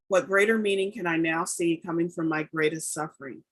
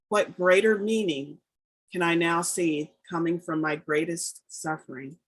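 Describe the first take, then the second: First: It is said at a quicker pace. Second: It is said at a slower pace.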